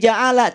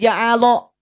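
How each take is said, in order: First: The vowel after the L is light, like A. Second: The vowel after the L is heavy, like O. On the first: The speaker calls it right. "bunyinya tidak lagi ja'ala" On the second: The speaker calls it wrong. "ketebalan yang ada pada lafaz Allah itu tertarik pada lafaz ja'ala"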